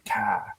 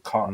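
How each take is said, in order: First: The R sound at the end is dropped. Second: The R sound at the end is pronounced. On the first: "Boston people don't really say "car" like that all the time" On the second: "throw a little R in it"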